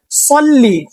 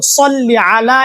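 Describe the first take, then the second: First: সল্লি said with a heavy emphatic ṣad; সল্লি with a full emphatic ṣad, not a thin s; correct Arabic pronunciation. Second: সল্লি আলা with the emphatic ṣad and a throaty ʿayn on আলা; সল্লি আলা, heavy ṣad then a throaty ʿayn on আলা; correct Arabic pronunciation. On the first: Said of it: "সদ উচ্চারণ করে বলতে হবে". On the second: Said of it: "আইনটা অবশ্যই উচ্চারণ করতে হবে". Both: Shown as a demonstration.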